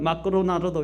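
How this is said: The name is said in a Japanese way. "일본은 마크로나르도 이렇게 얘기하거든요"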